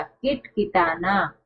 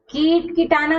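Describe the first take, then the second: First: किट किटाना slowly, short i; correct pronunciation. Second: कीट कीटाना with long ई; wrong pronunciation. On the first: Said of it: "छोटी ई की मात्रा". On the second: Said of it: "कीट कीटाना नहीं". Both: Shown as a demonstration.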